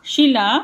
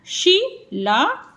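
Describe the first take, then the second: First: Said in the usual way. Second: शी ला drawn out, slightly higher; slow split; slow sounding out; slow separated syllables. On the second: Shown as a demonstration. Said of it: "आ का sound भी आएगा इसमें".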